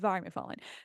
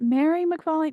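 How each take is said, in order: First: The first name begins with a V sound. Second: The first name begins with an M sound. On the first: The speaker calls it right. "M H is the v, the V sound" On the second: The speaker calls it wrong. "is it Mary McFarlane? No"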